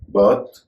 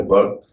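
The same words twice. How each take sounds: First: बर्थ spoken crisply with a rising end, like "birth"; pronunciation demo. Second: बर्थ said again as the other option, like "berth" with a rolled r; alternative pronunciation. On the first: Teacher sounding out बर्थ for the class, crisp and clear. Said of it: "B E R T H". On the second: Teacher offering the other way to say बर्थ, clear and deliberate. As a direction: give बर्थ its second reading, "berth". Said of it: "या बर्थ". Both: Shown as a demonstration.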